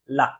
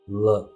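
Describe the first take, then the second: First: The L is released crisply with the tongue tip. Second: The L is soft contact with no clear release. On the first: The speaker calls it wrong. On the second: The speaker calls it right.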